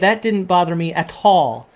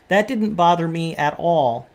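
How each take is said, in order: First: The T in 'at all' is sharply pronounced. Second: The T in 'at all' sounds soft, like a D. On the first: "they'll say ... really more pronounced T" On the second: "We uh, say"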